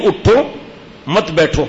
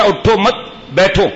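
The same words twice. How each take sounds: First: اٹھو، pause, then مت بیٹھو; pause after اٹھو. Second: اٹھو مت، pause, then بیٹھو; pause after مت. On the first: Preacher showing the right reading, pause after اٹھو. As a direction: break after اٹھو so it means stand, don't sit. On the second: Preacher showing the wrong translation, pause after مت. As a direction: break after مت so it means don't stand, sit. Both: Shown as a demonstration. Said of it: "ترجمہ غلط ہو گیا".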